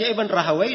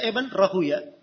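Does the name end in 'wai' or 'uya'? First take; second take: wai; uya. First: The name ends with a 'wai' sound. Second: The name ends with a 'uya' sound. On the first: "Boleh dibaca Ibn Rahawai" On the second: "boleh dibaca Ibn Rahuya"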